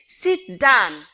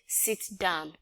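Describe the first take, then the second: First: It is said forcefully, with high intensity. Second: It is said mildly, with low intensity.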